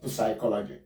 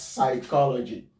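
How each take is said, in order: First: Psychology with the p voiced, puh-sigh-KOL-uh-jee; P wrongly sounded. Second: Psychology begun on a plain s sound, no p; silent P. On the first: Teacher showing how not to say psychology, P sounded. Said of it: "not psychology". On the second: Teacher modelling psychology for the class, silent P. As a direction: say "psychology" as sigh-KOL-uh-jee. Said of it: "We pronounce this one as". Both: Shown as a demonstration.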